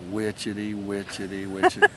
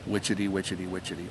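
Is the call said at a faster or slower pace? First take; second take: slower; faster. First: The call is said at a slower pace. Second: The call is said at a quicker pace. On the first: This is how the bird sounds down south. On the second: This is how the bird sounds in the north.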